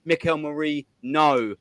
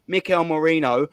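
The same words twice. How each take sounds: First: "Merino" broken off, its last syllable a separate "no"; name split on "no". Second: Said in the usual way. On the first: Shown as a demonstration. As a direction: split "Merino" so that "no" lands alone and stressed. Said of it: "the clue is in the title, in his name".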